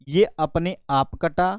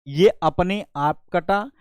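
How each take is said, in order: No difference in how they are said.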